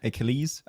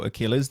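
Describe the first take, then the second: First: Achilles said the French way, lower and softer; Achilles, the French-leaning version; French pronunciation. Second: Said in the usual way. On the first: Shown as a demonstration. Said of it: "I was gonna say in French".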